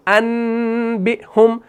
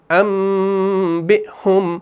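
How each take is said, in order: First: انبئہم as "annn-bi-hum", N held long; slow "annnbihum" for انبئہم; incorrect noon reading. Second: انبئہم as "ammm-bi-hum", M held very long; very slow "ammmbihum" for انبئہم; meem with ghunnah. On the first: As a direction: stretch a clear N in انبئہم. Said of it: "ہم نہیں پڑھتے ہیں". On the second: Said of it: "بلکہ میم کو پڑھتے ہیں". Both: Shown as a demonstration.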